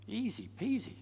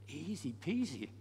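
First: Easy peasy lifted higher with peasy rising; rising and brighter. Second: Quiet easy peasy with a falling end; gentle falling easy peasy; soft and falling. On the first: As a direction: lift peasy up at the end. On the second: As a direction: say peasy softly and let it drop. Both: Shown as a demonstration.

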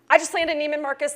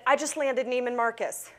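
First: "I just landed Neiman Marcus" said higher and louder, bursting with joy; excited repeat. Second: Said in the usual way. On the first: Retold or imitated. Repeating the news to stunned Sam, now excited. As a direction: shout the news the second time. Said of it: "Excuse me?". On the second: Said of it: "I said".

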